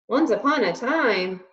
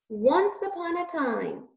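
First: It is said loudly in a booming voice. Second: It is said softly and timidly.

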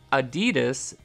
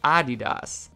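First: The stress is not on the first syllable. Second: The stress is on the first syllable. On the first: This is the American way of saying it. "please excuse my pronunciation" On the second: This is the European way of saying it. "moving the emphasis to the first syllable"

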